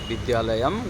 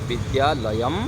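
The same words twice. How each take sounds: Both takes have the same delivery.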